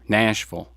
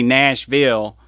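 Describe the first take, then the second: First: It is pronounced the way locals say it. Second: It is pronounced the way outsiders say it. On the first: The speaker lives there. The speaker calls it right. "which is how you say it when you live there" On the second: The speaker is from somewhere else. The speaker calls it wrong. "You don't say Nashville; they'll look at you funny"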